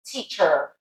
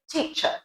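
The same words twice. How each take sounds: First: American teacher with a strong final R; American accent. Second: British teacher ending in "chuh"; teacher without an R, British schwa; British accent. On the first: Teacher contrasting teacher with British, American accent. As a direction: lean on the "er" of teacher, American style. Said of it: "With an American English accent". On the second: Teacher prompting learners on teacher, British accent. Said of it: "That's it with a British English accent". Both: Shown as a demonstration.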